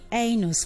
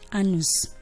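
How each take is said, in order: First: The first vowel is a long A sound. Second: The first vowel is a short A sound. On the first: The speaker calls it right. "It's supposed to be anus" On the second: The speaker calls it wrong. "People call that word anus"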